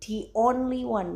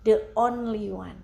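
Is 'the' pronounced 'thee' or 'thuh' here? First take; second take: thee; thuh. First: The word 'the' is pronounced 'thee'. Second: The word 'the' is pronounced 'thuh'. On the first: The speaker calls it right. "dibacanya di karena ketemu huruf o atau vokal o" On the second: The speaker calls it wrong.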